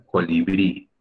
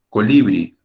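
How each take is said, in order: First: Colibrí said as coliBRÍ; correct final stress. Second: Colibrí said as coLIbri; wrong middle stress. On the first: Teacher corrects colibrí for students, stress on last syllable. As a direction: land the weight on the final BRÍ of colibrí. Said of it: "se pronuncia". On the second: Teacher shows how not to say colibrí, stress on LI. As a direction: misplace the weight onto LI in colibrí. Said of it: "No se pronuncia". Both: Shown as a demonstration.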